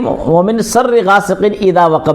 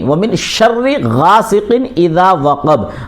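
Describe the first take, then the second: First: The second word begins with a plain s sound. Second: The second word begins with an sh sound. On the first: The speaker calls it wrong. "नहीं" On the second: The speaker calls it right. "जो नुक्ते वाला है उसको शीन बोला जाता है"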